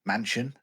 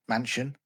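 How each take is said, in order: Both takes have the same delivery.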